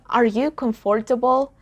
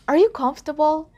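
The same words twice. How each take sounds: First: Every vowel sound in 'comfortable' is pronounced. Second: A middle vowel sound in 'comfortable' is dropped. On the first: The speaker calls it wrong. "It's not" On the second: The speaker calls it right.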